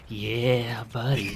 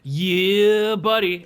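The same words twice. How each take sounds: First: It is said very softly and sneakily. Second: It is said at normal speaking volume.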